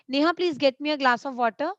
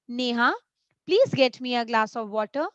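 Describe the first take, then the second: First: It is said in one flow without pausing. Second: There is a pause after the name. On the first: The speaker calls it wrong. "No, not like this. This is not the appropriate way to read" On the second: The speaker calls it right. "if there is a comma after Neha, I need to pause there"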